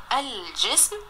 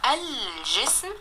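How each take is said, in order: First: Said in the usual way. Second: Drawn out slowly, each sound clear; teacher sounding out الجسم slowly; slow spelling-out. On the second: Shown as a demonstration. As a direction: stretch the word الجسم so the lam is heard. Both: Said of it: "نطقت اللام ومكتوبة".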